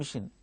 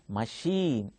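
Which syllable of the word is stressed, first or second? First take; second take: first; second. First: The stress is on the first syllable. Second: The stress is on the second syllable. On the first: The speaker calls it wrong. "Don't pronounce it as mission" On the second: The speaker calls it right. "the stress is on second syllable"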